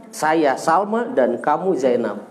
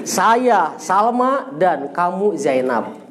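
First: A slow, even second read of the sentence; slow repeat. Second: Each word spaced out slowly for the student; very slow dictation. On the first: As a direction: repeat it slowly so the student can follow. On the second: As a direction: spell the sentence out at half speed. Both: Shown as a demonstration.

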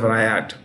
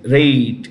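First: "riot" with an eye vowel; two-syllable "riot", starting like "rye"; mistaken pronunciation. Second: "rate" with a long ay; "rate" rhyming with "late"; correct pronunciation. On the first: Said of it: "rate instead of riot". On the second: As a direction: say "rate" as one syllable. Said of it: "That's how this is R A I T T". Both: Shown as a demonstration.

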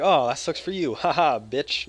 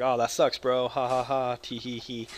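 First: Loud gloating jeer with a laugh; mocking taunt. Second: Light sympathetic tease with a giggle; mild teasing. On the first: Gamer mocks his friend over the cape, loud gloating jeer. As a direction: rub it in with a cackle. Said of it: "No, I'm just kidding. I didn't say that". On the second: Retold or imitated. Gamer's toned-down version of what he told his friend, light giggly tease. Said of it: "I was like".

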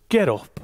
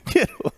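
First: Curt, firm order from God; commanding Get up with a touch of sternness; stern God command. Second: Much higher, laughing squeaky Get up; mock squeaky take. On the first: Acted. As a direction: bark it as a divine command. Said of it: "You're laughing because I said". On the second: Shown as a demonstration. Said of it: "You probably didn't say it like that".

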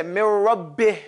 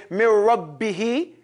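First: "Min Rabbih" ending on a breathy, vowelless h; stopped on sukoon. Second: "Min Rabbihi" with the last i sounded; final vowel voiced. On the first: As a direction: drop the last vowel of "Min Rabbih", leaving whispered h. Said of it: "in the Quran we stop". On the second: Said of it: "we don't stop on a mutaharrik". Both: Shown as a demonstration.

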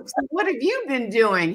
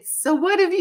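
First: Said in the usual way. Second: Sheepish question. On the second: Retold or imitated. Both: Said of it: "you know, sheepish".

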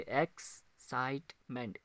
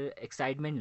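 First: "एक्साइटमेंट" slowly in three beats, एक्स-साइट-मेंट; split into syllables. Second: Said in the usual way. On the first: Shown as a demonstration. Teacher showing three syllables, "एक्साइटमेंट" split in three. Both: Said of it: "इसमें तीन syllables आते हैं".

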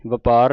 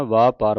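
First: ਵਪਾਰ said "vuh-paar"; ਵਪਾਰ with a quick "va"; short first vowel. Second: ਵਾਪਾਰ said "vaa-paar"; ਵਾਪਾਰ with two long "aa" vowels; long first vowel. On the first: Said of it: "ਵਪਾਰ ਨਹੀਂ ਪੜ੍ਹਨਾ". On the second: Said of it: "ਵਾਵੇ ਕੰਨਾ ਲੱਗਾ". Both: Shown as a demonstration.

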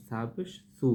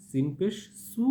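First: Soft lisped s in 'সা পেশ সু'; touch tongue tip to upper teeth for a gentle 'সু'; soft sa sound. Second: Firm, hissing s in 'সিন পেশ সু'; firm sin sound. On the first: Teacher demonstrates sa against sin, a soft dental 'সু'. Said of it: "এটা একটু নরমভাবে বলতে হবে". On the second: Teacher demonstrates sin against sa, with a firm s on 'সু'. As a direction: make the s of 'সু' hard and sharp. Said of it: "এটা একটু শক্তভাবে বললেই পার্থক্য বুঝতে পারতেছেন". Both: Shown as a demonstration.

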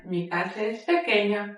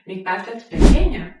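First: Said in the usual way. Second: Pequeña called out loudly; loud model read. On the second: Shown as a demonstration. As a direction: announce "pequeña" clearly and loud. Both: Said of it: "teacher repeats model phrase".

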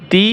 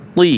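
First: "তি" with a thin dental t; light ta sound. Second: "তি" with a thick, emphatic Arabic t; heavy toa sound. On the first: Teacher drills similar letters, "তি" with light t. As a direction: say "তি" lightly, tongue tip on teeth. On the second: Teacher drills similar letters, "তি" with emphatic t. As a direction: raise the tongue back for a heavy "তি". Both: Shown as a demonstration. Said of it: "একটা হরফের উচ্চারণ অন্য হরফের সাথে মিলে যায়".

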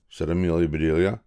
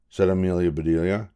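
The two takes are said the same way.

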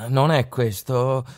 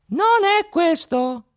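First: Said in the usual way. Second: Tiny high voice, slow and deliberate on "Non è questo"; a tiny boy correcting the robbers from inside a horse. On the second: A narrator's reading. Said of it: "rispose una vocina". (vocina acuta che dice "Non è questo")

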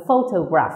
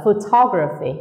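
First: Photograph with PHO, the first syllable, stressed. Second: Photography with TOG, the second syllable, stressed. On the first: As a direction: hit the opening pho in photograph. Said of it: "không nhấn vào phô như bình thường". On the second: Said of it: "Nhấn vào từ tall". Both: Shown as a demonstration.

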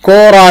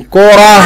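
First: كرة as kuratun, raised in pitch; voweled ending. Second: كرة as kurah, louder, breathed h; sukun ending. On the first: Teacher repeating for a pupil, كرة as kuratun. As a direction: sound a clear "-tun" on كرة. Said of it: "هقول تاني". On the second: Teacher pausing on the word, كرة as emphatic kurah. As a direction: push out a final h on كرة. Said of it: "هقف عليها بالسكون". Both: Shown as a demonstration.

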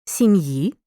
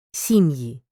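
First: Сім'ї with stress on the last syllable, сім'Ї; stress on the ending. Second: Сім'ї with stress on the first syllable, СІм'ї. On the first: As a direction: lean on the final ї of Сім'ї. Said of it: "Розрізняй форми родового відмінка однини". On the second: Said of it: "називного відмінка множини за наголосами". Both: Shown as a demonstration.

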